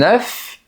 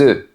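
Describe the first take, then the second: First: The word ends with an audible F sound. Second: The word ends without an F sound. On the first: It means a single egg. "au singulier, on prononce le F" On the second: It means several eggs. "On ne prononce pas la lettre F ni la lettre S"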